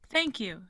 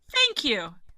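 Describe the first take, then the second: First: It is said calmly, without shouting. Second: It is said energetically, almost screamed.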